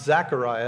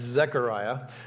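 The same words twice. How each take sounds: First: The first vowel is not an 'eh' sound. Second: The first vowel is an 'eh' sound. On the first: The speaker calls it wrong. "I pronounced his name wrong" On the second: The speaker calls it right. "it's Zechariah with an E"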